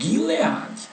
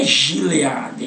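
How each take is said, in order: First: The word begins with a hard G sound. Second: The word begins with a soft J sound. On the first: The speaker calls it right. "é Gileade" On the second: The speaker calls it wrong. "Não é Gileade"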